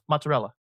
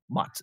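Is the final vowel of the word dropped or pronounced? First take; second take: pronounced; dropped. First: The final vowel is fully pronounced. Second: The final vowel is dropped. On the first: The speaker calls it right. "That's how you say it" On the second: The speaker calls it wrong. "It's not mozzarella"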